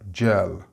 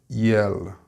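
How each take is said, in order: First: It begins with a 'j' sound. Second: It begins with a 'y' sound. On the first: The speaker calls it right. "and they are gel" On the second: The speaker calls it wrong. "It's not yell"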